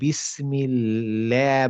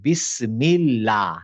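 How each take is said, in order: First: The lam sound is blurred toward a 'le' sound. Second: The lam sound is clear, light and fully pronounced. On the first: The speaker calls it wrong. "আপনি কেমন যেন একটু বিসমিল্লাহ বা লে টাইপের উচ্চারণ" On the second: The speaker calls it right. "লাম এখানে লাইট"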